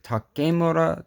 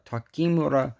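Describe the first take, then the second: First: "Takemura" said tah-KAY-moo-rah, higher; pronunciation with KAY. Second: "Takemura" said tah-KEE-moo-rah; pronunciation with KEE. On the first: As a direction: say "Takemura" with a long ay in the second syllable. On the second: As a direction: say "Takemura" with an ee in the second syllable. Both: Shown as a demonstration. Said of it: "how the hell I'm supposed to pronounce it".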